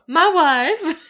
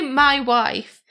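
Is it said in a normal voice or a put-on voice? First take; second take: put-on; normal. First: It is said in a put-on comic voice. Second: It is said in a normal voice.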